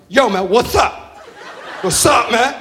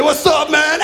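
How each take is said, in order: First: Put-on slow, drawn-out street-kid "yo"; wannabe gangster greeting. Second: Higher, shouted mock "What's up, man"; wannabe gangster greeting. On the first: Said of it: "This is how he talks to me". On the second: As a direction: ham up the kid's street act. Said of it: "He's waving gang signs at me".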